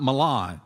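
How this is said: It is said with a general accent.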